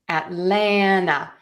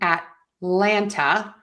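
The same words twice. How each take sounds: First: No T is said; the N runs on. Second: A clear T is said before the last syllable. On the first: "drop the T altogether and just keep that N" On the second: "You can say ta to end Atlanta"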